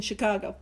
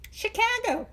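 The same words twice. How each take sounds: First: Said in the usual way. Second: "Chicago" in a high-pitched, put-on pronunciation; exaggerated Chicago. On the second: Shown as a demonstration. Speaker mocking how the city name sounds, exaggerated "Chicago". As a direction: say "Chicago" high and playfully overdone.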